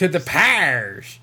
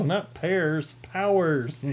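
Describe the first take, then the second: First: Slow drawled hillbilly accent; hillbilly accent, stretched out slowly. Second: "Powers" said slowly and high, two clear syllables. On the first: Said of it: "my hillbilly accent comes out". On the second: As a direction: spell out "Powers" carefully, slow and raised. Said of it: "What pears?". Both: Shown as a demonstration.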